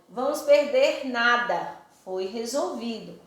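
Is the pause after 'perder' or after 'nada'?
after nada. There is a pause after 'nada'.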